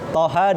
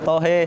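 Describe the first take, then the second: First: The final vowel is an open 'a' sound. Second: The final vowel is an 'e' sound. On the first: It is read in the Hafs recitation style. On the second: It is read in another recitation style.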